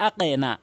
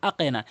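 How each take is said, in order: No difference in how they are said.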